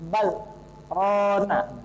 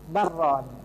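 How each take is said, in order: First: The 'l' is kept, with a short stop before 'r'. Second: The 'l' merges into a doubled 'r' without stopping. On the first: The speaker calls it right. "Hukum tajwidnya ini adalah saktah" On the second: The speaker calls it wrong. "diidghamkan lamnya kepada ro"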